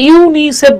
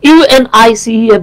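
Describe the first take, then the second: First: It is pronounced as a single word. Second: Each letter is pronounced separately. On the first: The speaker calls it right. "আপনি কিন্তু এটাকে ইউনিসেফ বলতেছেন" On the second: The speaker calls it wrong. "বলতেছেন না"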